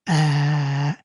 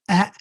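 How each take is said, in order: First: The vowel is stretched long. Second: The vowel is short.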